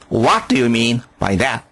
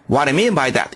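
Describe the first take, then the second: First: Every word is said clearly and fully. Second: It is said fast, with 'do you' reduced.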